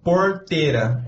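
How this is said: It has the countryside way of saying R. "O do interior é porteira"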